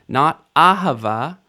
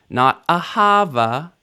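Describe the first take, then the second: Both takes have the same delivery.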